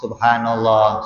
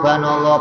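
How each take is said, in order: First: It is said slowly with every syllable clear. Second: It is rushed so the first syllable is lost. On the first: The words are said while reflecting on their meaning. The speaker calls it right. "ketika kita pelan-pelan" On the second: The words are rattled off without thought. The speaker calls it wrong. "saking cepatnya nggak kedengeran subhanallah"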